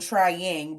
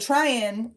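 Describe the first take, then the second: First: The ending is full, with the final g sound. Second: The ending is clipped, without the final g sound. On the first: "shortened from" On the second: "is shortened"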